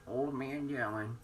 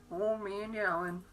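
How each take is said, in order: First: Put-on old man voice. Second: Put-on slow, higher crooning old man. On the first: Teasing the dog with a mock old man voice. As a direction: drag it out like a creaky old man. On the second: Teasing the dog in a higher cooing voice. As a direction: lift it up and stretch it out. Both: Shown as a demonstration.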